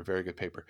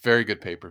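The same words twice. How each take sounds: First: Much softer, under the breath; quiet. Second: Said in the usual way. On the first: Real, not acted. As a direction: murmur it to yourself. Repeats praise, trailing off.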